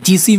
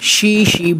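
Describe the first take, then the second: First: The name begins with a j sound. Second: The name begins with an sh sound. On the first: The speaker calls it wrong. "অনেকে জিসি mango বলে" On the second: The speaker calls it right. "কিন্তু এর অ্যাকচুয়াল নাম শি শি mango"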